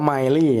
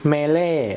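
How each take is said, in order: First: The first syllable sounds like 'my'. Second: The first syllable sounds like 'meh'. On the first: "ดูจากคลิปต่างประเทศแล้วเขาอ่านว่า" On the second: "ตอนแรกก็อ่านไม่ค่อยออกไม่รู้จะอ่านว่าอะไรนะ"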